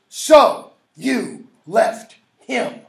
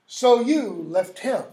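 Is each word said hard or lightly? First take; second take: hard; lightly. First: Each word is said hard and separately. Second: Each word is said lightly and evenly. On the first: The speaker calls it right. "Emphasizing each syllable" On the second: The speaker calls it wrong. "That is not so you left him"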